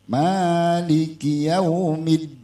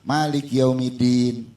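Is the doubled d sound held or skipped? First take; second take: held; skipped. First: It is unhurried and the doubled d is held. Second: It is rushed and the doubled d is skipped. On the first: The speaker calls it right. "mad asri atau mad tobai, dua harokat" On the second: The speaker calls it wrong. "Buru-buru Maliki yaumiddin. Nyangkut nggak tuh tasdid?"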